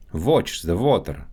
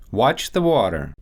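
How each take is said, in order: First: Russian accent, "Watch" said as "votch". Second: Said in the usual way. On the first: Shown as a demonstration. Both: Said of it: "W and V sounds".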